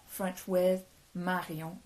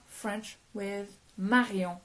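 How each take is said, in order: Both takes have the same delivery.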